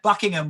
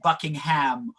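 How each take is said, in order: First: Some syllables are swallowed and shortened. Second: Every syllable is pronounced in full. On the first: This is the usual British way. "That's why you get Buckingham" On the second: This is not the usual British way. "rather than Buckingham"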